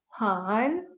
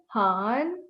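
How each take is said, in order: The two takes are said the same way.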